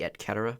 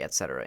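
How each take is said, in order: First: The c in cetera sounds like k. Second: The c in cetera sounds like s. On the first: This is the Latin pronunciation. "In Latin, it'd be et cetera because um, they don't pronounce C's like uh, soft or like uh, S sound" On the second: This is the English pronunciation. "we use it in English. We say et cetera"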